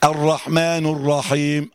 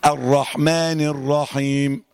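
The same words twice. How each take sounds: First: الرحمن ending in a rounded -nu, slow and drawn out; الرحمن closing on u, not i; noon with damma. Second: الرحمن ending in -ni, slow and drawn out; الرحمن closing on i, not u; noon with kasra. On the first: Retold or imitated. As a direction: say الرحمن as rahmanu before الرحيم. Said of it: "كان بيقول كده اهو". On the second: Shown as a demonstration. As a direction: link الرحمن to الرحيم with a clear i on the noon. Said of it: "اكسر النون".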